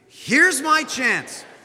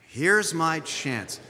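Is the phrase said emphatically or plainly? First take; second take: emphatically; plainly. First: The phrase is said with strong, heartfelt emphasis. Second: The phrase is said plainly, without extra emphasis. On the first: "Say it with more meaning" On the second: "Say it out loud"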